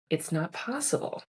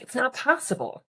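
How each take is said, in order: First: It is said in a calm, lowered tone. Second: It is said in an agitated, emotional tone. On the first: The speaker is responding with composure. "It's a response. It's a reflection" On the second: The speaker is reacting out of stress. "a reaction, right? Where we have this, this emotion"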